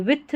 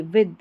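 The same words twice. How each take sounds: First: With ending in a voiceless थ, "with-th"; wrong th ending. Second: With ending in a voiced द, "wid"; soft d ending. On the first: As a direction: say with as "vith", breath on the last sound. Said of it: "with नहीं पढ़ना है". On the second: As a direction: say with as "vid", voiced at the end. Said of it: "द का उच्चारण होगा". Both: Shown as a demonstration.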